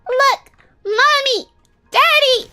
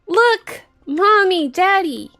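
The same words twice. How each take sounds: First: It is said in a put-on little girl voice. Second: It is said in the speaker's normal voice.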